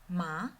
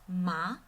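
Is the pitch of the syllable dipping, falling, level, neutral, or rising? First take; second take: rising; rising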